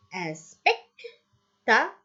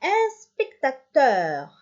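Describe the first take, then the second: First: "spectateur" as spec, ta, teur with gaps; slow "spectateur", a pause after each syllable; split into syllables. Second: Said in the usual way. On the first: Shown as a demonstration. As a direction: break "spectateur" up slowly for pupils. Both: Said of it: "teur, trois".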